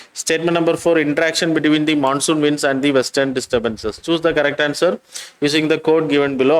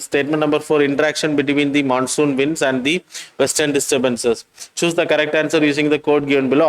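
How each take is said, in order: Both takes have the same delivery.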